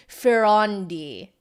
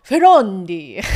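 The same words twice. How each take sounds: First: Ferrandi slow, stress on the second syllable, the vowel ah; saying Ferrandi carefully, ah in the middle; trying the name. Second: Ferrandi said loud, clear ah on the second syllable; loud second try. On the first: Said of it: "Is that how you say it?". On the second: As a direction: say Ferrandi boldly, vaguely Italian. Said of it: "No, it's terrible". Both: Shown as a demonstration.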